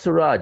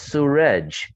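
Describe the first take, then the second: First: The name is said to rhyme with garage. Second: The name is said to rhyme with sewage. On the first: The speaker calls it wrong. "it's not Suraj" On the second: The speaker calls it right. "my actual pronunciation"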